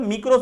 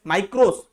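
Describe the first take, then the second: First: मिक्रोस with a short "i" as in "mick"; the other micros. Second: माइक्रोस with a long "ai" as in "my"; micros said our way. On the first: Teacher shows the other way to say it, मिक्रोस as "mick-ros". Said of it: "कुछ लोग मिक्रोस भी पढ़ते हैं". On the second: Teacher shows students how to say माइक्रोस, "my-kros" with "ai". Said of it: "माइक्रोस ऐसा बोलते हैं हम लोग". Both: Shown as a demonstration.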